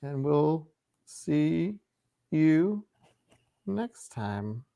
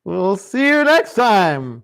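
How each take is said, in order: First: Slow, drawn-out villain sign-off; menacing villain goodbye. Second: Slow, hammed-up villain farewell. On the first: Real, not acted. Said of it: "I said that like a villain". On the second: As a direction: drag it out like a cartoon villain. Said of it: "said that like a villain".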